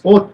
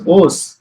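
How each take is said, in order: First: The word ends with a t sound. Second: The word ends with an s sound. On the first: The speaker calls it right. "We are pronouncing it as oth" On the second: The speaker calls it wrong. "why we are not pronouncing here number two as os?"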